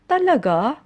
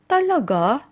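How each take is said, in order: First: It sounds like a doubtful, unsure question. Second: The same.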